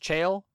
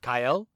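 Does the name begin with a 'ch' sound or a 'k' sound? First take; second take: ch; k. First: The name begins with a 'ch' sound. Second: The name begins with a 'k' sound. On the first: The speaker calls it wrong. "I had been mispronouncing" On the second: The speaker calls it right. "in the Latin is pronounced Cael"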